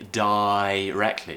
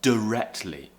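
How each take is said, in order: First: The first vowel is a full 'eye' diphthong. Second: The first vowel is reduced to a schwa. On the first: "this diphthong of I directly, like in the word die" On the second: "replace the I with a schwa sound, and it could become directly"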